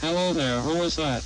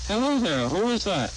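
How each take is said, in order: First: "Hello there, who is that" with small rises and falls; reduced inflection. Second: HELLO THERE and WHO IS THAT each rising high then falling; full natural rise and fall on "Hello there, who is that"; normal inflection. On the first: Demonstrator comparing inflections, narrowed swing on "Hello there, who is that". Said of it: "One-half-to-one". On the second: Demonstrator comparing inflections, normal swing on "Hello there, who is that". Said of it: "One-to-one". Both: Shown as a demonstration.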